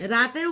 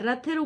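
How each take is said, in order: First: It has a long 'aa' vowel and plain 't'. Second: It has a short 'o' vowel and aspirated 'th'. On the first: The speaker calls it wrong. "রাতের উপরে না" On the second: The speaker calls it right. "রথের উপরে চড়ো"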